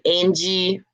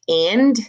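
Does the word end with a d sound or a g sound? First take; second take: g sound; d sound. First: The word ends with a g sound. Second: The word ends with a d sound. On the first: The speaker calls it wrong. "you're putting a G sound instead of a D sound" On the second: The speaker calls it right. "instead of saying and"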